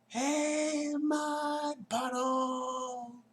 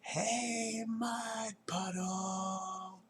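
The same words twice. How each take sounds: First: It is yelled even louder than before. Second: It is yelled at a normal loud level.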